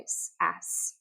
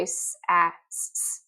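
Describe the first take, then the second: First: "s, ass" sounds joined into the word; soft blended reading. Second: "s, a, s, s" sounded out separately; choppy sound-by-sound reading; letter by letter. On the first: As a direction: blend the sounds smoothly into sass. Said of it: "No, we say". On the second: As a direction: spell the sounds apart, one at a time. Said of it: "do we say s, a, s, s? No". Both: Shown as a demonstration.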